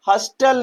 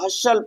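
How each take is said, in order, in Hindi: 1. 't' की ध्वनि बोली जाती है। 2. 't' की ध्वनि साइलेंट है। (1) "इसे हम हस्टल नहीं पढ़ेंगे" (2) "हसल पढ़ेंगे"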